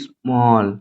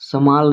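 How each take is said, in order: First: The vowel is a rounded 'aw' sound. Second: The vowel is an open 'a' sound. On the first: The speaker calls it right. "क्योंकि double L के बाद ए है तो इसे हम ओ करेंगे" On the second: The speaker calls it wrong. "इसको स्मॉल नहीं पढ़ेंगे"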